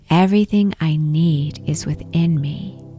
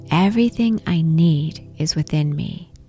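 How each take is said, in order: First: It is said aloud in a strong voice. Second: The same.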